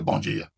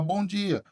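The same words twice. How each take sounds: First: It is said in a cold, curt tone. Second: It is said in a warm, friendly tone.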